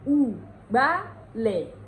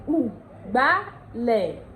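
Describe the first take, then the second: First: It is said in Ondo dialect, starting with u. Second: It is said in Ondo dialect, starting with u.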